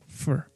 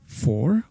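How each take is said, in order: First: It is said with a reduced 'fur' vowel. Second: It is said with a full 'or' vowel. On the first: "it's fur" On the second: "So it's not for"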